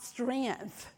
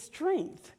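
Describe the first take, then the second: First: It is said with a Southern regional pronunciation. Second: It is said with a standard, neutral pronunciation. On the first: The speaker calls it wrong. "it's not strength" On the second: The speaker calls it right. "it's strength"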